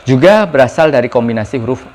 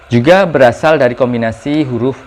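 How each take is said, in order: No difference in how they are said.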